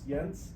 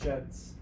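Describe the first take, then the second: First: The name is said the Danish way. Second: The name is said the English way. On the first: This is the technically original form. "That's the na- Danish pronunciation of it" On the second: This is how the name is normally said. "the correct pron- pronunciation is Gents"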